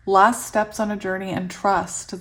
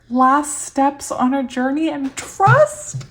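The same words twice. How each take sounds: First: Said in the usual way. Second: Slow, high, loud disbelief, rising at the end; amazed reading. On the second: Real, not acted. Reader finds the card matches her feeling, amazed. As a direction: read it out astonished, stretching up into a question.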